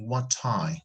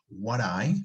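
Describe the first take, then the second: First: The T is a clear, full T sound. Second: The T is a quick flap, like a soft D. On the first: "Remember in standard English, we may say" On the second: "Here we are using flapping, which is very common in American English"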